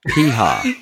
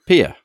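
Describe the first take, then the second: First: An h sound is heard between the vowels. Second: No h sound is heard between the vowels. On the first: The speaker calls it right. "It's got an H in it" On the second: The speaker calls it wrong. "You pronounce Pia"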